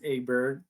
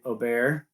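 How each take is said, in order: First: The name is said the anglicized American way. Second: The name is said the European Swedish way. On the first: The speaker calls it wrong. "how many people were saying" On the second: The speaker calls it right. "when it's actually"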